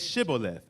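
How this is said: It begins with an 'sh' sound.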